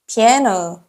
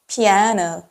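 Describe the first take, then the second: First: It is said with English pronunciation. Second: The same.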